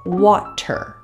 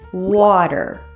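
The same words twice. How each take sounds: First: The middle T is a crisp true T. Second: The middle T is a soft D-like flap. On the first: "instead of" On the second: "It resembles a soft D sound"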